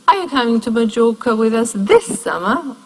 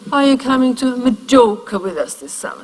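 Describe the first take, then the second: First: The strongest stress falls on this. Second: The strongest stress falls on Majorca. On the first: This summer is contrasted with next summer. "or next?" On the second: A neutral question. "the most neutral reading. The most stress is on Majorca"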